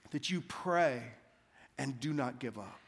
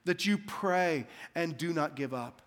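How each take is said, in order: First: Hushed, earnest preaching. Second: Said in the usual way. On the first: Acted. Slow hushed refrain.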